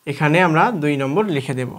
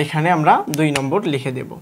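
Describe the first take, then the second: No difference in how they are said.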